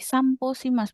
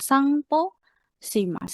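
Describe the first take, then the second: First: The nasal before p is an m sound. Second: The nasal before p is an ng sound. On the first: The speaker calls it right. "Jadi Samposimas" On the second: The speaker calls it wrong. "bukan Sangposimas"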